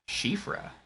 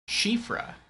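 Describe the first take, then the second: First: The name is said as 'shifra', starting with 'sh'. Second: The same.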